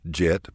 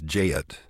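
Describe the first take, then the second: First: The word is said as one short syllable. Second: The vowel is stretched into two syllables.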